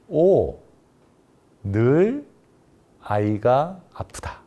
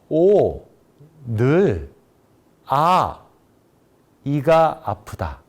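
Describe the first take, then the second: First: There is a pause after the syllable o. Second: There are pauses after both o and a. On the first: The child is always sick. "항상 아이가 아프다는 의미" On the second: The tooth always hurts. "이가 항상 아프다라는 의미"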